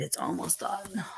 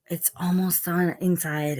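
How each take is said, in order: First: Soft whispered repeat; whispering. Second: Said in the usual way. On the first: Real, not acted. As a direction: drop it to a whisper. Repeat whispered right after.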